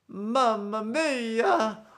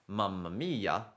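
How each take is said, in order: First: It is said in a very exaggerated cartoon voice. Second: It is said in a plain, ordinary voice. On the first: "he might do something like this. It's very exaggerated" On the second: "instead of saying"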